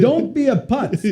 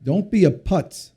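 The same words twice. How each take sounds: First: Put-on higher, slow French Jewish accent dad voice; slowly, higher, in dad's French Jewish accent. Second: Said in the usual way. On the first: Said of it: "in his little French Jewish accent". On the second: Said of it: "that was his main thing".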